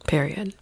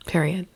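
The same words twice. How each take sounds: The two takes are said the same way.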